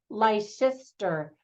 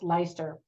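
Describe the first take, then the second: First: It is said following the spelling, fully. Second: It is said in a shortened form. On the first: This is how an American reading it would say it. The speaker calls it wrong. "Americans would read that" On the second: This is how the name is actually said. The speaker calls it right. "but it's pronounced"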